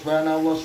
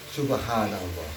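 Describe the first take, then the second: First: It is repeated in a forced, pushing way. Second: It is said calmly and with deep feeling. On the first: The speaker is trying to force a feeling. The speaker calls it wrong. "Itu memaksa-maksakan untuk hati" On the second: The heart is truly moved by what was seen. The speaker calls it right. "kita saksikan dengan kerohanian yang dalam"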